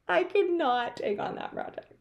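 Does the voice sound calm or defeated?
defeated. It sounds exasperated and defeated. The speaker feels worn out and unable to cope. The speaker calls it wrong. "you're so exasperated"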